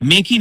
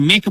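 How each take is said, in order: First: মেকি with an extra "ee" at the end; final E wrongly sounded. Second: মেক as one syllable, ending on the k; silent final E. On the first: Teacher showing the mistake, মেকি with the E pronounced. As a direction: say make as two syllables, মেকি. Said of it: "মেকি নয়, এটাকে মেক বলা হচ্ছে". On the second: Teacher correcting the word make, মেক with silent E. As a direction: stop মেক at the k, no "ee" after it. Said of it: "এটাকে মেক বলা হচ্ছে". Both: Shown as a demonstration.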